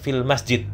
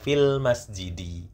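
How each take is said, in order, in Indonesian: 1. Kata terakhir berakhir tanpa vokal akhirnya. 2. Kata terakhir berakhir dengan vokal i pendek. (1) "Tidak masalah kalau mau mengucapkan fil masjid" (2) "agar terbiasa kita ucapkan harokat akhirnya"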